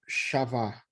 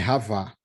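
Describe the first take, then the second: First: The word begins with an sh sound. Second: The word begins with a throaty h sound. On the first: The speaker calls it wrong. "está escrito Shavá, como se fosse o C cedilha, o X" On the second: The speaker calls it right. "mas é a pronúncia é com R"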